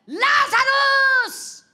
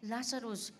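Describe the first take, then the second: First: The name is shouted loudly. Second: The name is said quietly, plainly.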